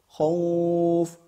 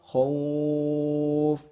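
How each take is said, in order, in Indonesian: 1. Vokalnya ditahan empat ketukan. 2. Vokalnya ditahan enam ketukan.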